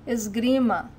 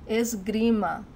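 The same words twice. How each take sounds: The two takes are said the same way.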